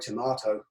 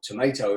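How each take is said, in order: First: Tomato is said with a British pronunciation. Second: Tomato is said with an American pronunciation.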